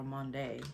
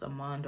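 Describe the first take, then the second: First: Amande ending in a sounded "day". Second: Amande ending on a plain "mahnd"; one-syllable ending. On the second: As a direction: say Amande as "uh-MAHND", final d closing it. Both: Shown as a demonstration. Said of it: "this is pronounced Amande or Amande".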